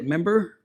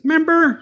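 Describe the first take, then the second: First: Said in the usual way. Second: High, loud catchphrase voice; George Lopez. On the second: Retold or imitated. Comic's catchphrase quoted to viewers, high and loud. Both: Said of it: "like George Lopez says".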